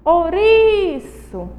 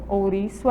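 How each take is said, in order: First: "Ouriço" with RI held long, high and slow; exaggerated slow stress on RI in "Ouriço"; stressed syllable drawn out. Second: Said in the usual way. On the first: Shown as a demonstration. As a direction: call out "Ouriço", stretching the RI. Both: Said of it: "é uma palavra paroxítona".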